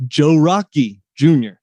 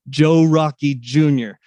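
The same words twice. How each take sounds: First: Joe Rocky Junior in a hint of a Pittsburgh accent; host showing off his guest's name in a light Pittsburgh accent. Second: Said in the usual way. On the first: Shown as a demonstration. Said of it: "I have to say it in this accent". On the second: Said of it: "I just love to say his name".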